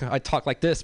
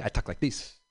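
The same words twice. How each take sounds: First: Said in the usual way. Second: "I talk like this" dropped low and soft in an L.A. street accent. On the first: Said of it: "That's why, like, I talk like this". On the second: Shown as a demonstration. Comic showing his L.A. street accent to the crowd. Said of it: "when I go back to L A, I talk like this".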